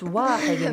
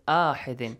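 First: The word begins with a w sound. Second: The word begins with a vowel sound. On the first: The speaker calls it right. "It's pronounced as waw" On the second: The speaker calls it wrong. "Why you're not reciting it ahidin?"

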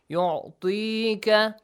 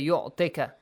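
First: The vowel before ka is held long. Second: The vowel before ka is cut short. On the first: The speaker calls it right. "we have yu'tika, which is ya maddi" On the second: The speaker calls it wrong. "So don't say yu'tika. Yu'tika is wrong"

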